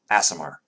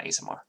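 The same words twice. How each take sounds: First: "A S M R" run together, first vowel as in cat; corrected pronunciation. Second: "A S M R" run together as AY-suh-mar; mispronunciation. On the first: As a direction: say "A S M R" as one word with a short A opening, ASS-uh-mar. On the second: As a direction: say "A S M R" as one word with a long AY opening. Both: Shown as a demonstration. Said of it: "not A S M R".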